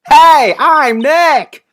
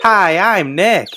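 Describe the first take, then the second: First: It is said loudly. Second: It is said fairly quietly.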